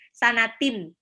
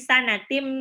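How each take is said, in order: First: The word ends with a clear n sound. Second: The word ends with an m sound. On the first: The speaker calls it wrong. "tidak boleh dibaca" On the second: The speaker calls it right. "tapi sanatim"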